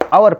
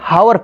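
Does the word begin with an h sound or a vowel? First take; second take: vowel; h sound. First: The word begins with a vowel sound. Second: The word begins with an h sound. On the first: The speaker calls it right. "इसे आवर पढ़ा जाता है। इसमें जो है एच चुपचाप silent रहता है" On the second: The speaker calls it wrong. "जब हम नहीं पढ़ते थे तब हम जानते थे जी हावर पढ़ा जाता है"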